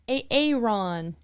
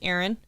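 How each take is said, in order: First: The name is said in an odd, split-up way. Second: The name is said in the ordinary, joined way. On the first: It imitates a teacher getting the name wrong. The speaker calls it wrong. "mispronounce things intentionally" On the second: It gives the name as it is normally said. The speaker calls it right. "And it's Aaron"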